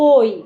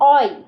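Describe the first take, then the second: First: The first vowel is closed, like 'oh'. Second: The first vowel is open, like 'aw'. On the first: The speaker calls it right. "এটা না বলে ওই" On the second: The speaker calls it wrong. "অয় না বলে"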